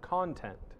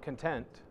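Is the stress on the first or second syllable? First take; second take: first; second. First: The stress is on the first syllable. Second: The stress is on the second syllable. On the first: The material contained in something. The speaker calls it right. "but content" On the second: Being satisfied with what one has. The speaker calls it wrong. "Not content"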